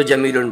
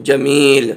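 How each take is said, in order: First: جمیل said quickly with "-un" added, "jamilun"; continuing ending. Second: جمیل stretched on "ee", stopping on a bare l; pausal ending. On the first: Teacher showing reading without stopping, continuing "-un" ending. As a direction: carry جمیل on into a final "-un". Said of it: "اگر سانس نہیں توڑیں گے". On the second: Teacher showing the reading when breath breaks, pausal ending. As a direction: end جمیل on l with no "-un". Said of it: "سانس توڑ دیں گے تو کیا پڑھیں گے". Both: Shown as a demonstration.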